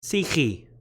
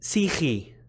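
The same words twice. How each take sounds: First: It is said in Modern Greek pronunciation. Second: It is said in Modern Greek pronunciation.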